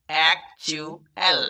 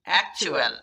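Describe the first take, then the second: First: "actual" slowly, in separate syllables; broken into syllables. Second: Said in the usual way. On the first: Shown as a demonstration. Teacher breaking the word up for reading practice, syllable by syllable. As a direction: pause between the syllables of "actual". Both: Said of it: "syllable ভেঙে ভেঙে".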